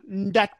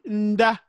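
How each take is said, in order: First: The word ends with a final T sound. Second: The word ends without a final T sound. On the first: The speaker calls it wrong. "d'autres abusent un peu en mettant le T" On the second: The speaker calls it right. "Mais on lit Nda"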